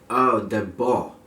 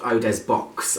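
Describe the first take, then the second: First: The last word ends in a vowel, 'bwah'. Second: The last word ends with a consonant, like 'box'. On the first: The speaker calls it right. "It is called Eau de Bois" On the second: The speaker calls it wrong. "not Eau des Box, as some people might say"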